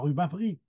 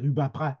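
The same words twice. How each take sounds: First: The final vowel is said closed. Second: The final vowel is said very open. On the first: This is the form written on a sign. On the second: This is how the name is said locally.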